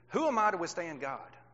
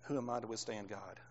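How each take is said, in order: First: It is read with power and conviction. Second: It is read in a flat monotone. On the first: It is a powerful statement of conviction. The speaker calls it right. "Read it with some power in your belief and your thoughts and your conviction" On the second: It is just words on a page. The speaker calls it wrong. "we like to read everything in a monotone type stat"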